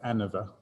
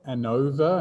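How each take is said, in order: First: The stress falls off the O syllable. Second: The stress falls on the O syllable. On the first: "Some people say ANOVA" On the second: "I say ANOVA and put the uh, emphasis on the O"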